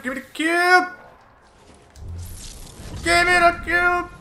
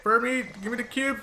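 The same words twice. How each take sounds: First: Higher, louder urgent demand; urgent shout. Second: Said in the usual way. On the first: Real, not acted. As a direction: yell it at your teammate.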